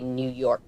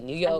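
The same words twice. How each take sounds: First: The word is said fully and carefully. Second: The word is said quickly and clipped short. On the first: "I don't say New York" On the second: "I cut it sleep and I say it fast"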